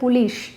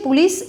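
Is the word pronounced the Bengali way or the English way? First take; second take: Bengali; English. First: It is said with a Bengali pronunciation. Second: It is said with an English pronunciation. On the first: "Bangla ভাষায় উচ্চারণ করছি তখন এটা পুলিশ, তালিবা শ" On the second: "ইংলিশে পুলিশ is a right"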